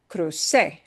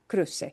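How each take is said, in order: First: The stress is on the last syllable. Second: The stress is on the first syllable. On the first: The crossing happened in the past. The speaker calls it wrong. "It's not crucé, I crossed" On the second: It is a command to cross. The speaker calls it right. "It's cruce"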